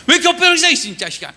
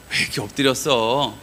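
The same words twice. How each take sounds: First: High, loud burst of mock outrage; hammed-up telling-off; rough scolding. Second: Low, tender question; gentle concern. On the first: God chewing out Joshua lying face down, mock-angry shout. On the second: Acted. God consoling Joshua lying face down, low gentle concern. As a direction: ask it soothingly, without reproach. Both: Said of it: "이러는 것 같으세요?".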